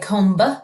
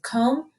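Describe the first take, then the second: First: A B sound is heard at the end. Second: It ends on the M sound, no B. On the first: The speaker calls it wrong. "So we don't say comb" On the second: The speaker calls it right. "We just hear the M sound"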